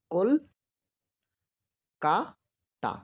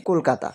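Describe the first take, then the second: First: কল-কা-তা stretched into three slow beats, কল then কা then তা; syllable by syllable. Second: Said in the usual way. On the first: Shown as a demonstration. Teacher showing students how to count syllables, slowly split. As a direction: say কল-কা-তা slowly, a clear break after each syllable. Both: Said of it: "ঝোঁক দিয়ে পড়ব".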